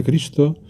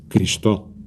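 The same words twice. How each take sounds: First: Said in the usual way. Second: Cristo stressed on the last syllable, Cristó; wrong stress. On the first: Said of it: "sonaría más o menos así". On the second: Shown as a demonstration. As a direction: move the accent onto the final -to of Cristo. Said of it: "hago esas palabras agudas". (Cristo con acento agudo, Cristó)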